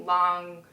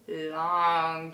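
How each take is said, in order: First: Said in the usual way. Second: LONG stretched out on a low pitch; "long" held in one slow, low note; drawn-out LONG. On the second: Shown as a demonstration. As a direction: drag the word "long" out wearily. Acts out drawn-out scenes.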